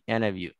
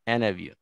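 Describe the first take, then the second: The two takes are said the same way.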